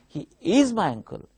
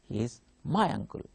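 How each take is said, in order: First: The stress falls on the word is. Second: The stress falls on the word my. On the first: It answers someone who denies the relation. "Here stress is on is" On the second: He is not someone else's uncle. "my stress will be on my"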